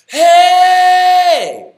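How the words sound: The voice is airy with much breath escaping. The speaker calls it wrong. "Here's a bad one that has no compression"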